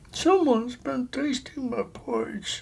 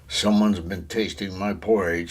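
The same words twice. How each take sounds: First: The voice sounds middle-sized. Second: The voice sounds great and big. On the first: "in her middle-sized voice" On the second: "in his great big voice"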